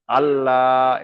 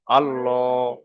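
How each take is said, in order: First: আল্লাহ with a light, thin L; light thin Allah. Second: আল্লাহ with a round, heavy L; a full, heavy আল্লাহ; heavy rounded Allah. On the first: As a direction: keep the lips spread on আল্লাহ. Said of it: "এটা হলো বারিক". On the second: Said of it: "এটা হলো পুর". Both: Shown as a demonstration.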